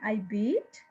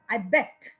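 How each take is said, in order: First: The verb is said as the present tense form. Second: The verb is said as the past tense form. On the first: The action happens now. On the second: The action happened before.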